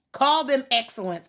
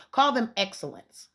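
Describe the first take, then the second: First: Said again with more force, pitched up; a firmer second go at it; louder insistence. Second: Said in the usual way. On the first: Real, not acted. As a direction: push the repeat harder, punching call. Repeating suggestion to the school.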